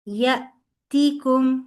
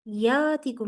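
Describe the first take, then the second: First: The first vowel is cut short with a stop. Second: The first vowel is drawn out long. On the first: The speaker calls it right. "उस पे आवाज और सांस रुक जाते हैं, ... इस तरह ये पढ़ा जाएगा" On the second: The speaker calls it wrong. "यातिकुम नहीं पढ़ना इसे"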